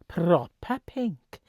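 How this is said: It is said in a put-on Welsh accent.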